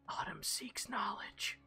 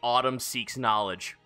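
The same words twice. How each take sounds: First: It is muttered quietly under the breath. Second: It is said out loud in a clear voice. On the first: A sword speaks eerily into the listener's mind. "it mutters to you" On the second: The line is repeated so everyone can hear it. "I will say it out loud for those who didn't hear it"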